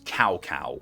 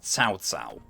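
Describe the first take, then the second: First: It is said like the English word cow, twice. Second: It is said with a Chinese ts sound, twice. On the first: The speaker calls it wrong. "I was treating it as if it was um, English pronunciation" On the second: The speaker calls it right. "the name's actually pronounced Cao Cao"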